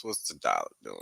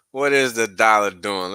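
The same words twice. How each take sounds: First: A low, quiet growl of a question; goofy deep-voiced aside to viewers; mock deep voice. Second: Announcing the chart check to viewers; louder normal voice. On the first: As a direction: drop the voice way down and soften it, playful. Mock deep voice before charts. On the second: Pretend. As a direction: back up to normal pitch and say it louder. Answers own goofy question louder.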